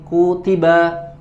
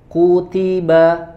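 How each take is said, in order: First: The syllables are rushed and said quickly. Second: The syllables are said with equal length. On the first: The speaker calls it wrong. "lebih cepat" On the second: The speaker calls it right. "serasi atau sama timbangannya"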